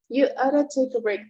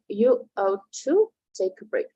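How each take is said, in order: First: Ought to is run together as oughta. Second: Ought to is said as two full words. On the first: It sounds more fluent and natural. "sound a little more fluently" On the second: It is a careful, comfortable way for learners. "they feel more comfortable if they pronounce it"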